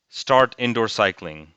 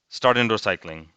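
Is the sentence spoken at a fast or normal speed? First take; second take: normal; fast. First: It is spoken at a normal speed. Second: It is spoken very fast. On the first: "the first time I read the word, it was pretty like at a normal speed" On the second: "and then I went like really fast"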